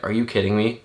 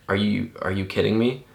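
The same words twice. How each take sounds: First: Mild imitation of his own shocked reaction; stunned disbelief. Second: Said in the usual way. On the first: Recalling how he reacted to Kobe's death, stunned disbelief. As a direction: recreate the disbelief he felt at the news. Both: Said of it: "my tone of saying it was like".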